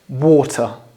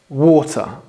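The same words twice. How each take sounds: First: It is said British-style with a clear T. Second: The same.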